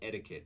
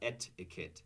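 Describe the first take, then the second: First: The middle T sounds like a soft D. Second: The middle T is a crisp, clear T. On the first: The speaker calls it right. "notice that the T is pronounced like a D" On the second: The speaker calls it wrong.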